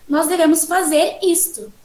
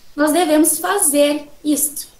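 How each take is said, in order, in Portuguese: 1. A palavra isto é enfatizada. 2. A palavra fazer é mais alta, com uma pausa. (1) "o foco no isto" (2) "nós temos o foco no fazer"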